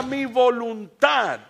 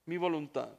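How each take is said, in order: First: High, loud, drawn-out climax; preacher's shout. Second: Quiet repeat. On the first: Preacher at the climax on surrendering to God, shouted. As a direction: shout it out slowly to the congregation. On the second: Preacher letting the point sink in, quietly. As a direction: drop down and let it sink in. Hushed repeat after the climax. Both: Real, not acted.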